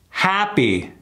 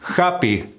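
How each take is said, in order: First: The first vowel is bright and forward. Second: The first vowel is open, Spanish-style ah. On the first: The speaker calls it right. "You see how bright and forward that sound is?" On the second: The speaker calls it wrong.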